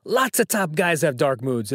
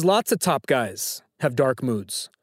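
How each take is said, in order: First: Put-on half-hearted Silvio accent, slightly lowered; poor Silvio accent. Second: Said in the usual way. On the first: Host quoting a trivia line to Sam, poor Silvio accent. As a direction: quote it in a lightly attempted Silvio accent. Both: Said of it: "in my poor Silvio accent".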